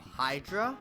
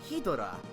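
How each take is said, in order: First: It is said as two syllables, Hy-dra. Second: It is said as three syllables, Hi-do-ra. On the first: "the English wording of Hydra" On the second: "they pronounce it Hidora"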